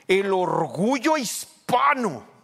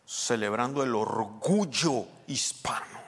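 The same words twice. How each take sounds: First: High, slow, booming imitation of a celebration announcer; loud proud proclamation. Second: Slow, drawn-out TV proclamation with "orgullo" stretched; TV presenter imitation. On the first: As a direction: proclaim it with drawn-out pride, very loud. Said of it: "yo he oído así". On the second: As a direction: mimic a television host savouring each word. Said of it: "Algunos dicen así en la televisión".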